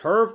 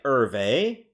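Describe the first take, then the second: First: The name is said as one syllable. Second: The name is said as two syllables. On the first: The speaker calls it wrong. "I've been pronouncing it as Herv the whole time" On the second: The speaker calls it right. "I didn't know it was like Hervé"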